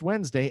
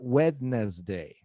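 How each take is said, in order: First: It is said in its usual shortened everyday form. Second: It is said with every written letter sounded. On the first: The speaker calls it right. "it's pronounced Wednesday" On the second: The speaker calls it wrong. "and not Wednesday"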